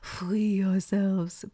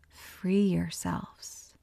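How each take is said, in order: First: It is said with a put-on French accent. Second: It is said in the speaker's plain accent.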